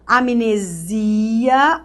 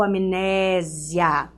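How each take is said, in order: First: Slow "Amnesia", am-ne-ZI-a; tônica no SI. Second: Slow "amnésia", am-NÉ-zia; tônica no NÉ. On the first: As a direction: stretch ZI in "Amnesia". ("Amnesia" alongado, tônica no ZI) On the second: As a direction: stretch open NÉ in "amnésia". ("amnésia" alongado, tônica no NÉ) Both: Shown as a demonstration. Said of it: "Tem os dois".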